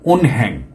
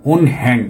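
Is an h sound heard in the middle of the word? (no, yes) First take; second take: yes; yes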